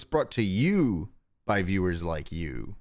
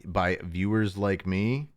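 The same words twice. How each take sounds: First: Announcer-style slogan read; mock PBS announcer. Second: Said in the usual way. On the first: Shown as a demonstration. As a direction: read it like a sponsor tag. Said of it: "literally brought to you by viewers like you". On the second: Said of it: "No, it's brought to you by viewers like you".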